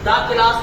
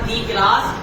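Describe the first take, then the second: First: 'The' is said with a short 'uh' vowel. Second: 'The' is said with a long 'ee' vowel. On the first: The speaker calls it right. "दा class पढ़ा जाएगा" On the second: The speaker calls it wrong. "दी class नहीं पढ़ा जाएगा"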